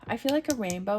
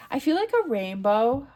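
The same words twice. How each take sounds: First: Said in the usual way. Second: Louder, bright burst of joy; excited. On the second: Real, not acted. Reader choosing a comment emoji for viewers, excited. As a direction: announce it with delight. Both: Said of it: "what do we wanna leave?".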